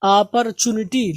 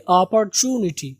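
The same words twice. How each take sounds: First: "اپرچونٹی" as aa-par-chu-ni-ti, short chu; "اپرچونٹی" opening with aa; common wrong opportunity. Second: "اپرچونٹی" as o-par-chuu-ni-ti, long chu; "اپرچونٹی" with the middle chu held long; stretched chu. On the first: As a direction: say "اپرچونٹی" with an open aa start and unstretched chu. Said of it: "ہم اس کو پڑھتے ہیں اپرچونٹی". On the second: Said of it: "جو زیادہ کھینچیں گے". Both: Shown as a demonstration.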